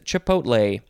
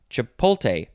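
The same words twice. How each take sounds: First: The T comes before the L: chi-pot-lay. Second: The L comes before the T: chi-pol-tay. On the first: The speaker calls it right. "It is chipotle" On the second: The speaker calls it wrong. "a word that a lot of people mispronounce. They say chipotle?"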